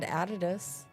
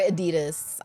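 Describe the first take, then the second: First: The brand name has a British pronunciation. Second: The brand name has an American pronunciation.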